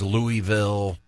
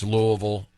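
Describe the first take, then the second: First: Louisville as LOO-ee-vill, every syllable clear; outsider's pronunciation. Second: Louisville as LOO-uh-vul, swallowed; local pronunciation. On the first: Host mimicking non-locals, Louisville as LOO-ee-vill. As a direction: say Louisville with EE in the middle. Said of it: "if somebody says". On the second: Host giving the locals' way, Louisville as LOO-uh-vul. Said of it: "That's the way the locals do it". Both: Shown as a demonstration.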